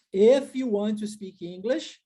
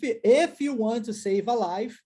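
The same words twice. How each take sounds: First: Slow "If" with a Portuguese i; careful, slow wrong version of "If"; "If" com i português. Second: Slow "if" said as "ef"; "if" devagar como "ef"; if with e sound. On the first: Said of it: "não é assim". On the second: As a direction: drawl "if" like "ef" slowly. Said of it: "então é if". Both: Shown as a demonstration.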